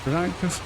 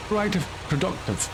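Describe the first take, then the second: First: Rising, doubtful repeat; questioning. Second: Proactive then productive, settled; self-correcting. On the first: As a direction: query the word Proactive. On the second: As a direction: fix the word to productive. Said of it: "That's a better word". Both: Real, not acted.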